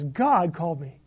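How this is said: The stress is on God.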